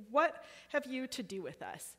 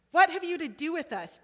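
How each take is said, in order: First: Said in the usual way. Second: High loud cry of the spirit. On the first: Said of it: "He starts saying". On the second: A narrator's reading. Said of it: "he cried out".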